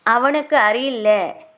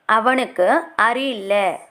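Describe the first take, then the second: No difference in how they are said.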